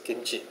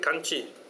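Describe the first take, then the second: First: The first vowel is an 'i' sound. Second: The first vowel is an 'a' sound. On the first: This is the Siamese reading. "S E Siamese, they pronounce as kimchi" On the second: This is the Burmese, Sinhalese and European reading. "Burmese ... they read kanchi"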